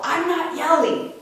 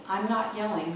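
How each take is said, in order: First: High, loud mock-angry yell; demonstrated yell. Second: Said in the usual way. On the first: Mother fed up with kids' accusations, literally yelling back. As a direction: yell the denial at the top of your voice. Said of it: "I would yell". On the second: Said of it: "This is yelling".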